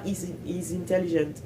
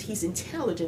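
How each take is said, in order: First: Intelligent with every syllable even and a full "gent"; wrong pronunciation. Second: Intelligent with stress on TEL, reduced ending; American pronunciation. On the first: Showing the mistake, evenly stressed French-style intelligent. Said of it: "c'est pas". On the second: Showing the right intelligent, stress on TEL. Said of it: "quand tu dis intelligent". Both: Shown as a demonstration.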